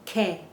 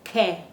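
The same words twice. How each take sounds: Both takes have the same delivery.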